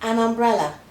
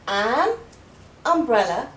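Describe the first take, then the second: First: The phrase is said quickly as one word. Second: The phrase is said slowly and carefully.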